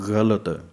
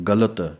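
First: It starts with a soft, gargling fricative consonant. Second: It starts with a hard stop consonant. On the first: "ਇੱਕ ਪਾਸੇ ਗੱਗੇ ਪੈਰ ਬਿੰਦੀ ਹੈ" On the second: "ਇੱਕ ਪਾਸੇ ਪੂਰਾ ਗੱਗਾ ਹੈ"

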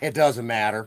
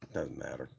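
First: It is said louder, for everybody to hear. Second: It is said at a normal, softer volume.

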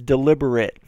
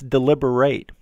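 First: The final syllable sounds like 'it'. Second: The final syllable sounds like 'eight'. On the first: It is used as an adjective. "the pronunciation of at the end is it" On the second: It is used as a verb. "the end is pronounced like eight"

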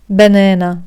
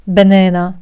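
First: It is said in an American accent. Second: It is said in an American accent.

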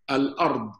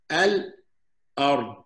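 First: The word is said smoothly without a pause. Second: There is a short pause before the glottal stop.

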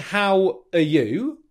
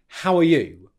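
First: The words are said separately with a full 'are'. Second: The words run together with a reduced 'are'. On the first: The speaker calls it wrong. "I'm not saying" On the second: The speaker calls it right. "I'm using the rhythmic reduced form of are, and I'm saying"

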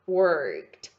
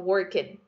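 First: The ending is said with a T sound. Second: The ending is said with a D sound. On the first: The speaker calls it right. "A pronúncia é worked" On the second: The speaker calls it wrong. "Geralmente as pessoas falam assim"

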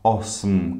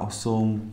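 First: The final m forms a syllable without a vowel. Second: A vowel is inserted before the final m. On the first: It is the standard form. "tiếng chính thức thì là" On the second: It is the Central Bohemian dialect form. "thì là tiếng địa phương Trung Séc"

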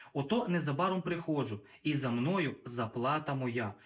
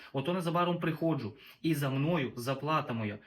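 Both takes have the same delivery.

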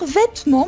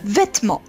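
First: The second syllable is pronounced clearly. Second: The second syllable is almost not pronounced. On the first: "on va dire vêtements, mais" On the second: "on ne va presque pas prononcer la deuxième syllabe"

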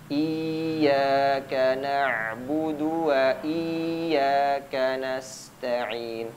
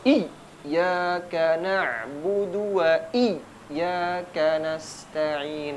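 First: The vowel before the doubled ya is drawn out. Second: The doubled ya is hit with an exaggerated jolt. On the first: "yang kedua dipanjangkan huruf sebelumnya" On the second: "dia dibaca hentakannya berlebihan"

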